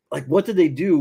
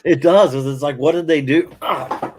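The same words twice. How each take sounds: First: Said in the usual way. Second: Pained by a sudden back spasm; having a back spasm. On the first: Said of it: "sorry, folks". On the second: Real, not acted. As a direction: talk through a sharp back twinge. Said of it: "having a back spasm there".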